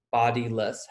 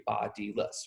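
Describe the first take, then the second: First: Said in the usual way. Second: "bodiless" softly sounded out as bod-i-less; syllables separated. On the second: Shown as a demonstration. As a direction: say "bodiless" in three distinct beats. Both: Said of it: "bodiless has three".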